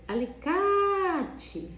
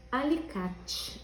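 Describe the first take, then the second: First: "Alicate" with a very long, high "ca"; stretched stressed syllable. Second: Said in the usual way. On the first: Shown as a demonstration. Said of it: "O K ficou bem comprido". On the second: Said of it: "Não tem acento".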